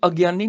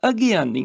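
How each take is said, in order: First: ਅਗਿਆਨੀ run together as ag-yaani; wrong merged vowel. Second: ਅਗਿਆਨੀ with a clear gi; sounded vowel. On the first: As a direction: say ਅਗਿਆਨੀ quickly without a clear i. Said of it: "ਇਹਨੂੰ ਅਗਿਆਨੀ ਨਹੀਂ ਬੋਲਣਾ". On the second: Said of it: "ਗੱਗੇ ਨੂੰ ਸਿਆਰੀ ਹੈਗੀ ਆ". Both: Shown as a demonstration.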